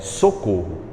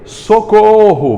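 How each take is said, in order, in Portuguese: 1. É dita de forma neutra, em volume normal. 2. É gritada em voz alta, com forte ênfase. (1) "Você não vai dizer isso" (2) "vai dar uma ênfase, vai aumentar a voz, vai gritar"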